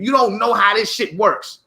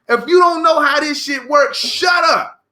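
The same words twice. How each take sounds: First: Said in the usual way. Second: Shouted. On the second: Real, not acted. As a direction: blow up at them on the repeat. Ranting repeat, second louder.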